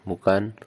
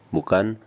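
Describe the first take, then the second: Both takes have the same delivery.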